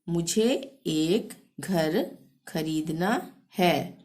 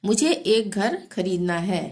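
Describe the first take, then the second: First: मुझे एक घर खरीदना है dragged out, word by word; slow repeat. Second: Said in the usual way. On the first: Shown as a demonstration. Teacher repeating the Hindi sentence for students, slowly. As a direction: stretch the sentence slowly for learners. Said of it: "slow repeat for the learners". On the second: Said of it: "first reading before slow repeat".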